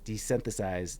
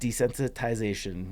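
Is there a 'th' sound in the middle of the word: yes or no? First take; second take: yes; no. First: The middle is said with a 'th' sound. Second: The middle is said without a 'th' sound. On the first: The speaker calls it wrong. "There's no th" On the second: The speaker calls it right. "There you go"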